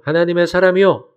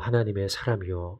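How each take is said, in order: First: It is said in a mocking, sneering tone. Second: It is said in a respectful, reverent tone. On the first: The caller ridicules the man addressed. "약간은 조롱하는 투로" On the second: The caller honors the man addressed. "이렇게 존경하는 의미로 부른 게 아니고"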